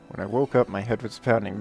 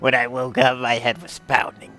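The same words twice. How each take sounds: First: It is read in the speaker's natural voice. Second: It is read in a put-on character voice.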